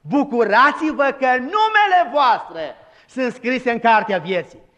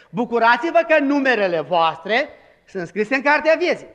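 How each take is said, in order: First: "numele" said slowly and clearly, the right word; slow, careful "numele" restoring the verse; corrected quote. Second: "numerele" said as if it were the verse; deliberate misquote. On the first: Preacher gives the congregation the true verse, slow and deliberate. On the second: Preacher tests the congregation with "numerele", plain delivery. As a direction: slip in "numerele" on purpose, then catch it. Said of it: "Așa zice? Nu". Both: Shown as a demonstration.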